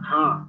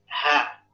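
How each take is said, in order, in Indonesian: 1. Bunyi h itu sengau, lewat hidung. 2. Bunyi h berasal dari dalam tenggorokan. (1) "hati-hati uh, pengaruh hidung. Jangan ha" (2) "tapi ha, ya. Mesti di uh, bagian uh, mana di bagian pangkal sini nih"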